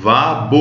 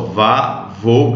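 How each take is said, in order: First: The second consonant is a b sound. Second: The second consonant is a v sound. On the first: The speaker calls it wrong. "não leio vabo" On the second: The speaker calls it right. "esse beit aqui nós não pronunciamos como B de bola"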